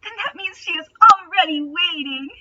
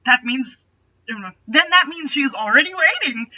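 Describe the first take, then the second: First: Higher, brightened-up reread of the line; cheerfully. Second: Forced cheer. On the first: Aragorn trying cheerfully to lift Legolas's spirits. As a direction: force cheer to lift his friend. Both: A narrator's reading. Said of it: "as cheerfully as he could".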